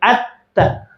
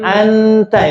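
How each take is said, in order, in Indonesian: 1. Bunyi n dihilangkan, jadinya terdengar t ganda. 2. Bunyi n diucapkan penuh dan jelas. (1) "Kalau n-nya dibuang jadi atta" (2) "Kalau n, anta itu n"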